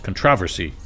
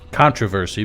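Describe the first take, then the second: First: The stress is on the second syllable. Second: The stress is on the first syllable. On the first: This is the British way of saying it. "which is really annoying to say" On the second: This is the American way of saying it. "in America, we like to enunciate the first one"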